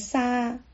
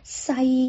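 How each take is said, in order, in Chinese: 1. 元音以开口结束，没有结尾滑音。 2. 元音以清晰的 'ee' 滑音结束。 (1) "如果你把后面的一省略掉了，就变成沙" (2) "塞的韵母呢应该是i"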